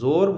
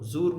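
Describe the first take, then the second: First: The vowel is a long 'o' sound. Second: The vowel is a long 'oo' sound. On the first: The speaker calls it right. "ओ की आवाज़ में" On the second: The speaker calls it wrong. "ऊ की आवाज़ में नहीं"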